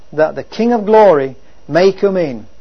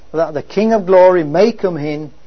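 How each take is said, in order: Both takes have the same delivery.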